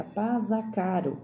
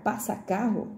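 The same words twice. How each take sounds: First: "pasa caro" with a Z and a single tapped R; misread as spelled. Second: "passa carro" with a hissed S and a strong breathy R; correct sounds. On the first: Teacher reading the wrong spelling aloud, "pasa caro" with Z and tapped R. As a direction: say "pasa caro", buzzing Z, light flapped R. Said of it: "a palavra carro também fica caro". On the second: Teacher showing the intended words, "passa carro" with S and strong R. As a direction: say "passa carro", unvoiced double S, aspirated double R. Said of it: "Então, pra ficar passa carro". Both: Shown as a demonstration.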